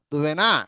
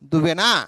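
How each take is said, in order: The two takes are said the same way.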